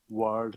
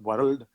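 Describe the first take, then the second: First: The R in the word is not rolled. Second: The R in the word is rolled. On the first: The speaker calls it right. "You should talk it like world" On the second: The speaker calls it wrong. "not world"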